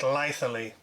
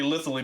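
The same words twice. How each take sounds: First: The first part does not sound like lithium. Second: The first part sounds like 'lith' in lithium. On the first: This is how the company says it. "in their video... they're pronouncing it Lithely" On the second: The name comes from lithium batteries. "I would think it would be Lithely because I'm assuming it used lithium batteries"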